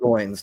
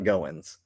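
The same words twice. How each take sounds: First: The name rhymes with coins. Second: The name does not rhyme with coins. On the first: The speaker calls it right. "It is Parker Goins" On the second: The speaker calls it wrong. "not Goins"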